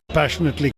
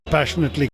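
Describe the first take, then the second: The two takes are said the same way.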